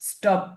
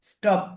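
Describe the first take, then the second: No difference in how they are said.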